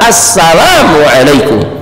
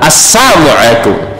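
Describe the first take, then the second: First: The s and l sounds are fully articulated. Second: The l sound is slurred or dropped. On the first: It is a proper greeting wishing peace. The speaker calls it right. "Sinnya ada, lamnya ada" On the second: It can sound like a curse instead of peace. The speaker calls it wrong.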